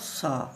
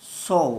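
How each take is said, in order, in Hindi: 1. स्वर बिना गोल, खुला 'aa' ध्वनि है। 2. स्वर गोल 'aw' ध्वनि है। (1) "इट्स नॉट सा" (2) "इट्स सौ"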